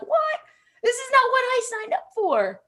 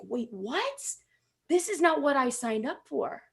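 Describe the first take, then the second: First: Much higher, incredulous mock outrage; hammed-up disbelief at a coworker; exaggerated high-pitched "what?"; mock indignation. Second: Hushed, puzzled inner voice; soft bewildered thought; quiet dismay. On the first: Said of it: "I'd look at them and I'd be like". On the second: Retold or imitated. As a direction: mutter it to yourself in disbelief. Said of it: "I would think".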